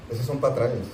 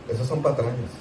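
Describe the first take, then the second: No difference in how they are said.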